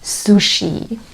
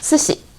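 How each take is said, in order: First: It is said with English-style sounds. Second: It is said with Japanese-style sounds. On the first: The speaker calls it wrong. "in the English way" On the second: The speaker calls it right. "Got the difference?"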